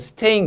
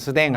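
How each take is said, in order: First: It is said fully as 'stein' with a 't' sound. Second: It is clipped to 'sdaeng' with a 'd' sound.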